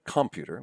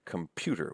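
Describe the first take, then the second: First: Computer as COM-pyu-ter; stress on first syllable. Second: Computer as com-PYU-ter; stress on second syllable. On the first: Lecturer shows what we don't say, computer said COM-pyu-ter. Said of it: "We don't say computer". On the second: Lecturer shows natural stress, computer said com-PYU-ter. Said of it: "with the stress here". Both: Shown as a demonstration.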